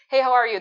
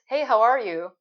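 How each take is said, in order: First: It is said very fast. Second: It is said more slowly.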